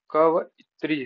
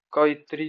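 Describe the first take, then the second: First: कवइत्री with व sounded apart; word broken up. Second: Said in the usual way. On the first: Shown as a demonstration. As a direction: separate क-व from इत्री, louder on the start. Word repeated for spelling. (कवयित्री, व अलग से बोलकर)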